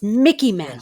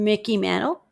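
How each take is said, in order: First: The name is said firmly and confidently. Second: The name is said hesitantly, like a question. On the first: The speaker is sure of the answer. The speaker calls it right. "I should have said it with more confidence" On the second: The speaker doubts the answer. The speaker calls it wrong. "hesitantly correct"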